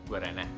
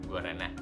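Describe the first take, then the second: Both takes have the same delivery.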